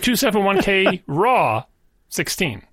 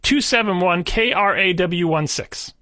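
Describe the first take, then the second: First: RAW is said as one word. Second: The letters R, A, W are spelled out separately.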